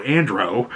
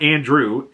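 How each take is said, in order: First: "Andro" said "AN-droh", rhyming with "go"; correct name. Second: "Andrew" said as the usual English name, ending in "-droo"; "Andrew", not "Andro"; wrong name. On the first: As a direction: stress the first syllable of "Andro", end on an "oh" sound. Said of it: "A N D R O W". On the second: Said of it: "and not Andrew". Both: Shown as a demonstration.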